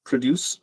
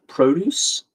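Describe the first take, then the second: First: "Produce" as pruh-DOOS, short weak first vowel; verb pronunciation. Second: "produce" as PROH-doos, full long o, rising; noun pronunciation. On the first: Streamer tests the clue's readings aloud, "Produce" as pruh-DOOS. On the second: Streamer tests the clue's readings aloud, "produce" as PROH-doos. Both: Shown as a demonstration. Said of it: "Produce or p-, produce?".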